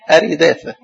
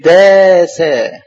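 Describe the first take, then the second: First: Said in the usual way. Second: أريداثا slow, with long drawn vowels; spelled out by syllables. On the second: Shown as a demonstration. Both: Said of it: "ممدودة والراء مكسورة".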